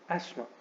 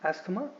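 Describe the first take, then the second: First: No 'th' sound is said in the middle. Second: A 'th' sound is said in the middle. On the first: The speaker calls it right. "Instead आपको बोलना चाहिए एस्मा" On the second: The speaker calls it wrong. "इसमें कोई थ sound नहीं है ... you should not pronounce this word as एस्थमा"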